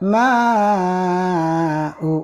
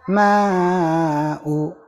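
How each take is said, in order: First: The long vowel is held for six beats. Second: The long vowel is held for four beats. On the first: "Enam harokat, empat kali ketukan singkat" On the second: "Empat harokat, tiga kali ketukan singkat"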